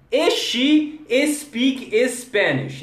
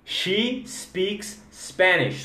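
First: E she speak Spanish. higher and slow, with E before she and speak; wrong E she. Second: She speaks Spanish. slowly, no added E, each S clean; correct she speaks. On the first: Retold or imitated. Teacher mocking the Brazilian e-she espeak mistake. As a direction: mimic Brazilians adding E everywhere. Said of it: "o she você nunca fala e she". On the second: Shown as a demonstration. Teacher giving students the corrected sentence slowly. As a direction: start She and speaks straight on the consonant. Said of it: "Não".

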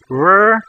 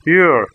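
First: Said in the usual way. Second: "er" as rounded Russian ё, tongue tip down. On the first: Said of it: "the English word were". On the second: Shown as a demonstration. Teacher drilling learners on ё, tongue tip down. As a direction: say "er" with mid-tongue up and tip lowered. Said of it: "tip of your tongue might be down".

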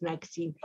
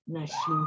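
First: Naksin read letter by letter with a hard ks for the X; spelled-out reading. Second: Nashin with a soft sh sound for the X; Nashin, sh not ks, the right way; correct pronunciation. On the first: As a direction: say Naksin as it is written, k and s sounds. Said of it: "que se escribe con X". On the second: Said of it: "cómo debo pronunciar su apellido". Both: Shown as a demonstration.

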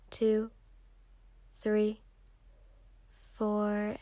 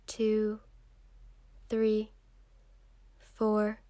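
The two takes are said the same way.

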